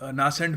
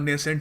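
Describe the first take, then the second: First: The first vowel is an open 'ah' sound. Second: The first vowel is an 'ay' sound. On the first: The speaker calls it wrong. "हमारी Indian accent में नासेंट भी कह सकते हैं" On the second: The speaker calls it right. "अच्छा रहेगा अगर हम नेसेंट ही कहें"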